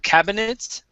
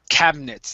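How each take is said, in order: First: The middle vowel is pronounced, giving three syllables. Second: The middle vowel is dropped, giving two syllables. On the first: The speaker calls it wrong. "instead of pronouncing that I" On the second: The speaker calls it right. "it's going to be silent here"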